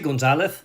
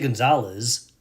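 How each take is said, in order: First: The z is pronounced as a th sound. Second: The z is pronounced as an s sound. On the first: "you hear the th, the lisp sound" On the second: "I don't say Gonzalez"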